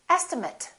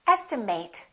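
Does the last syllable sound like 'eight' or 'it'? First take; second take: it; eight. First: The last syllable sounds like it. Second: The last syllable sounds like eight. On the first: It is used as a noun. "if it's a noun" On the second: It is used as a verb. "This can be a verb. In that case, it's pronounced as estimate"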